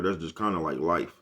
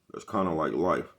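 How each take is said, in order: First: Said in the usual way. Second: "That's kinda like life" said slowly, each word weighed; slow it down and let "kinda like life" land; a slow, deliberate repeat of "kinda like life"; slow emphatic repeat. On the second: Shown as a demonstration. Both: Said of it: "repeated slower".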